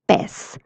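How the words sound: The word ends with an s sound. This is how it is said in Latin America. "the person in Latin America from Mexico would be saying pez"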